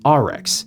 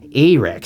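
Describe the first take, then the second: First: The name begins with an open 'ah' vowel. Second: The name begins with an 'ay' vowel. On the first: The speaker calls it right. "I'm pretty sure it's pronounced R-Rex" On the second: The speaker calls it wrong. "I grew up in Minnesota and Wisconsin, so it's A-Rex"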